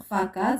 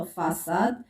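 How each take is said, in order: First: "فا كاد" with a hard K in the middle; wrong K sound. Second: "فاساد" with a soft S in the middle; cedilla S sound. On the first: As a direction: say "فا كاد" as fa-kad. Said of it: "لا يمكن نطق فا كاد". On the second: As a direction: say "فاساد" as fa-sad. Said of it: "سنطق فاساد". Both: Shown as a demonstration.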